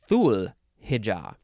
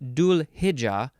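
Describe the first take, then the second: First: The first word begins with a TH sound. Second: The first word begins with a D sound. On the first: "or a T H sound" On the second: "with a D sound"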